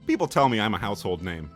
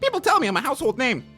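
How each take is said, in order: First: It is said in the speaker's own normal voice. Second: It is said in an impersonated character voice. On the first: "just read it in the normal voice" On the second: "I want to make it sound like he was talking"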